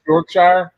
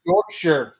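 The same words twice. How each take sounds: First: "Yorkshire" ending in a full "shire"; mispronounced Yorkshire. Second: "Yorkshire" ending in a reduced "sher"; corrected Yorkshire. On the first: Real, not acted. Asking where that is, "Yorkshire" with a full "shire" ending. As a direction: say "Yorkshire" to rhyme its end with "fire". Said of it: "Oh, my bad. Yorkshire". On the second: Shown as a demonstration. Correcting himself to co-hosts, "Yorkshire" with a "sher" ending. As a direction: say "Yorkshire" with a weak last syllable, "YORK-sher". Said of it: "Oh, my bad".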